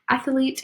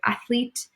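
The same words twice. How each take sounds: First: An extra vowel is inserted before the L. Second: No extra vowel is inserted before the L. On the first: "We add that vowel of E in between" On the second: "instead of"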